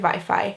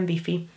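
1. A szót angolos kiejtéssel mondjuk. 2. A szót magyarosított kiejtéssel mondjuk. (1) "Míg Mexikóban azt mondanák" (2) "hanem wifi"

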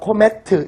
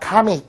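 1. 세 음절로 발음합니다. ko-me-teu. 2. 두 음절로 발음합니다. ka-mit. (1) "어디 가서 코메트 이러지 마시고요" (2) "카밋이라고 발음합니다"

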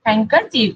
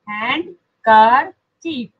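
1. सामान्य बोलचाल में d की आवाज़ छूट जाती है। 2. यह शब्द हिस्सों में बोला जाता है, d के साथ। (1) "क्या बोला जाता है इसको वैसे?" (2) "हैंड KERCHIEF"

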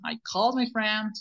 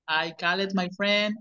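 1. La terminación se pronuncia sin una sílaba extra. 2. La terminación se pronuncia como una sílaba extra. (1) "no pronuncien la E" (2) "Siempre llegan los alumnos diciendo"

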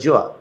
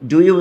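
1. শব্দ দুটি মিশে একটি সংক্ষিপ্ত শব্দ হয়ে যায়। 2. দুটো শব্দই পুরোপুরি আলাদা করে বলা হয়।

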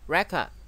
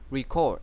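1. Trọng âm rơi vào âm tiết thứ nhất. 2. Trọng âm rơi vào âm tiết thứ hai. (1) "Danh từ đọc là record" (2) "động từ đọc là record"

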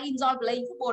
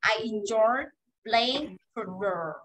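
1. Từ 'playing' được nói ngắn. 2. Từ 'playing' được kéo dài. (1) "không nói là" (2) "Playing kéo dài ra là playing football"

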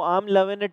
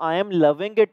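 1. शब्द loving का अंत बिना g की ध्वनि के होता है। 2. शब्द loving का अंत पूरी g ध्वनि के साथ होता है। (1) "बट वो लास्ट में जी नहीं बोलते" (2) "वो वर्ड तो आई एम लविंग इट है"

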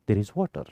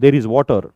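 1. हे वाक्य हळू आणि शांतपणे बोलले जाते. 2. हे वाक्य मोठ्याने आणि जोरात बोलले जाते.

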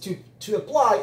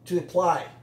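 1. Se dice completo, cada sonido claro. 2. Se dice reducido, los sonidos se juntan. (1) "aquí que es to apply" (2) "a veces se vuelve to apply"

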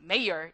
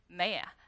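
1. 이 단어는 익숙한 비영국식으로 발음해요. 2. 이 단어는 영국식 억양으로 발음해요. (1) "여러분들이 아는 mayor 이렇게 안 나오고요" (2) "영국식 발음이랑 친해져야 된다"

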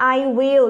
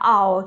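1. พูดเป็นสองคำเต็ม 2. ลดเหลือพยางค์สั้นพยางค์เดียว (1) "เรารู้แล้วว่าแปลว่าฉันจะ" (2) "เหลือออกเสียงแค่"

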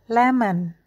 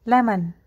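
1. Kata ini diucapkan perlahan. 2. Kata ini diucapkan cepat. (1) "Berlatih perlahan dulu" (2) "Sekarang lebih cepat dengan satu ketukan"

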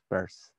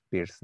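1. El nombre suena como la palabra 'purse'. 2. El nombre suena como la palabra 'pierce'. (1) "Este es Peirce" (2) "no es Pierce"

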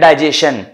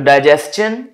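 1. अंत में sh की ध्वनि है। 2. अंत में ch की ध्वनि है। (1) "बहुत से लोग कह देते हैं डाइजेशन" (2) "T I O N को चन पढ़ते हैं"

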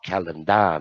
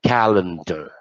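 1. พยางค์สุดท้ายมีสระ 'ar' เต็มเสียง 2. พยางค์สุดท้ายมีสระ 'er' ลดเสียง (1) "เขาก็ไม่ได้ออก" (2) "เขาออก"

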